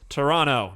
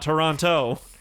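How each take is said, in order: First: It is said the way local Canadians say it. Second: It is said the way outsiders say it. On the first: The speaker is really from the city. The speaker calls it right. "they call the place Toronto" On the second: The speaker is not from the city. The speaker calls it wrong. "not Toronto"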